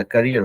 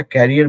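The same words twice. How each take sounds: First: करियर said with a short first vowel, kəriər; करियर with a quick short "kuh" start; correct pronunciation. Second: कैरियर said with a long open first vowel, kɛriər; wrong pronunciation. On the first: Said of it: "करियर होता है". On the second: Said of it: "अब कैरियर नहीं होता". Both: Shown as a demonstration.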